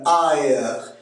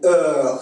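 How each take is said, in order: First: It is said in a Quebec French accent. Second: It is said in a France French accent.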